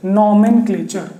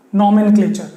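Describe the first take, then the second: First: nomenclature said slowly, syllables drawn out; slow, lower-pitched nomenclature for learners; slow repeat. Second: Said in the usual way. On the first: Shown as a demonstration. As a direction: stretch nomenclature out for the class. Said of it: "ध्यान से". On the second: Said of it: "हम लोग शुरू करेंगे".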